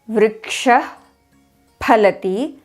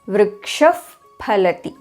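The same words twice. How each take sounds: First: The first word ends in a breathy h sound. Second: The first word ends in an f sound.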